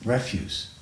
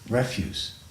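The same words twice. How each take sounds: First: It is said with the noun pronunciation. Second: It is said with the noun pronunciation.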